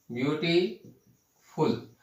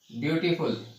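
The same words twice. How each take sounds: First: "beautiful" said slowly, with a long pause before फुल; syllable by syllable. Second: Said in the usual way. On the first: Shown as a demonstration. Teacher breaks word into syllables. ("Beautiful" को धीरे, टुकड़ों में)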